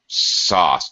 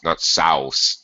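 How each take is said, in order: First: The vowel sounds like 'ah' as in father. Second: The vowel sounds like 'ow' as in house. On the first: The speaker calls it right. "mostly in English, A U makes an ah sound" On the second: The speaker calls it wrong.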